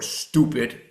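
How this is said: The word is said with an American accent.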